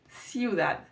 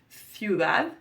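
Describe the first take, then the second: First: The word begins with a plain s sound. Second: The word begins with a lisped th sound. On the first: "in Latin America, you will not know, because it will sound like ciudad" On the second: "here in Spain we hear that th"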